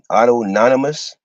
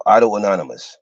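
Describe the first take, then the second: First: Auto-anonymous run together as "auto-nonymous", rising at the end; variant pronunciation. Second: Auto-anonymous with the middle "uh" sounded, "auto-uh-nonymous", falling; alternative pronunciation. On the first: Trying out a term for the class, tentative variant pronunciation of auto-anonymous as "auto-nonymous". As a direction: say auto-anonymous without the middle "uh", voice lifting. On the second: Offering the class another option, alternative pronunciation of auto-anonymous as "auto-uh-nonymous". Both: Shown as a demonstration. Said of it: "the pronunciation".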